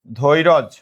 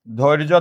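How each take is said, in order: First: ধৈরজ as "dhoi-roj", vowel after r; inserted vowel. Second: Said in the usual way. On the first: Shown as a demonstration. Teacher shows class the changed word, ধৈরজ said "dhoi-roj". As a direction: break ধৈর্য's cluster into ধৈরজ, ending on j. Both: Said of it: "আমরা যদি বলি এইরকম".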